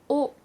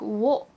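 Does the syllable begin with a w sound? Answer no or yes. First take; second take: no; yes. First: It is a plain o vowel without w. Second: It starts with a w sound before o. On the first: The speaker calls it right. "it's more of just an o sound" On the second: The speaker calls it wrong. "you don't really say it like wo"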